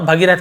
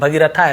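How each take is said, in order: First: The name ends on the consonant 'th'. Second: The name ends with an added 'a' vowel. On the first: The speaker calls it right. "इसे हम पूरा भगीरथ बोलेंगे" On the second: The speaker calls it wrong. "भगीरथा ऐसे नहीं बोलेंगे"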